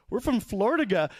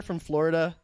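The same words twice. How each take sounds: First: "Florida" garbled as "Flor-duh-guh"; mispronounced Florida. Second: Said in the usual way. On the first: Retold or imitated. Couple naming their state, "Florida" botched as "Flor-duh-guh". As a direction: mangle "Florida" with a g in the last syllable, higher pitched. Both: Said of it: "they can't even pronounce the name".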